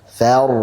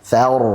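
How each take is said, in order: No difference in how they are said.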